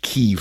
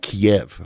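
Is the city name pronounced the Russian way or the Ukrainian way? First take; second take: Ukrainian; Russian. First: The name is pronounced the Ukrainian way. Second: The name is pronounced the Russian way. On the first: This is how Ukrainians say the name. The speaker calls it right. "it's pronounced Kyiv" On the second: This is how Russians say the name. The speaker calls it wrong. "not Kiev, how the Russians pronounce it"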